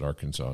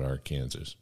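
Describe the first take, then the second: First: The word ends with a 'saw' sound. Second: The word ends like the name 'Kansas'. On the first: This pronunciation makes the pun work. The speaker calls it right. "that only works if you pronounce it Arkansas" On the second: This pronunciation breaks the pun. The speaker calls it wrong. "not Arkansas"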